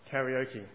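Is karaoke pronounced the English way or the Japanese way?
English. The word is said with English-style pronunciation. The speaker calls it wrong.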